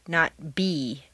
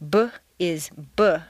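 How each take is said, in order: First: The full letter name bee is said. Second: Only the short consonant sound b is said. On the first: The speaker calls it wrong. "not the name" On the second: The speaker calls it right. "the sound of the letter"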